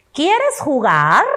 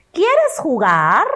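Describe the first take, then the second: First: Slow "¿Quieres jugar?" with rising tune; question intonation. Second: Slow "¿Quieres jugar?" rising at the end; question intonation. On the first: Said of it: "Vamos con la siguiente". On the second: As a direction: invite a friend to play, clearly asking. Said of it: "Otra vez". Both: Shown as a demonstration.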